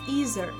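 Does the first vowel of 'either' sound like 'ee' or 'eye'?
ee. The first vowel sounds like 'ee'. "American English typically pronounces the E sound"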